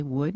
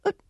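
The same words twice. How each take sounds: First: Said in the usual way. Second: A rough birdlike attempt at wood; squawky parrot imitation; parrot noise. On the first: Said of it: "and I'd say". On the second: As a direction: mimic a parrot squawking oot. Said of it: "he might go something like".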